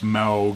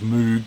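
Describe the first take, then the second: First: The vowel sounds like 'mao'. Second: The vowel sounds like 'moo'. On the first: The speaker calls it right. "The vowel sound is like Mao instead of m- rather than Moo" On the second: The speaker calls it wrong. "I always thought it was Moog"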